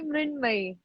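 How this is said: Said with 'Mrin' and ending in 'may'. "Hindi speaking people call me Mrinmay"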